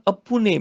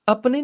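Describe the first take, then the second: First: ਅਪੁਨੇ as three syllables, "a-pu-ne"; correct pronunciation demo. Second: ਆਪਣੇ as two syllables, "ap-ne"; wrong pronunciation demo. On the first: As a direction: say ਅਪੁਨੇ with a short "u" after the p. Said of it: "ਪੱਪੇ ਨੂੰ ਔਂਕੜ ਨਾਲ". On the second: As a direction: say ਆਪਣੇ with no "u" after the p. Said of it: "ਆਪਣੇ ਨਹੀਂ ਬੋਲਣਾ". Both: Shown as a demonstration.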